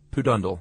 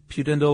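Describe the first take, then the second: First: "pudendal" with a plain "poo" first syllable and "dun" middle; alternative pronunciation. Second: "pudendal" with a "pyoo" first syllable and "den" middle; alternative pronunciation. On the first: Co-host offering the other way of saying the nerve's name, "pudendal" as poo-DUN-dul. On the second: Co-host offering one way of saying the nerve's name, "pudendal" as pyoo-DEN-dul. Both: Shown as a demonstration. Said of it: "I'm not sure which".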